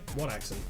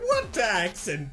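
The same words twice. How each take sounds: First: It is said in a plain, neutral voice. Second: It is said in a heavy put-on accent. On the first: This is how he hears himself. "In his own head, he said" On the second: This is how others actually hear him. "but in reality, he just went"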